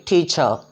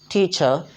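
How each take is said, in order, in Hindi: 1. अंतिम r मौन रहता है। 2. अंतिम r मौन रहता है।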